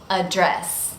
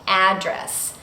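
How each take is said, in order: First: The stress is on the second syllable. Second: The stress is on the first syllable. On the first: It is the verb, meaning to speak to someone. "it has stress on the second syllable" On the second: It is the noun, meaning where someone lives. "completely different from the noun address"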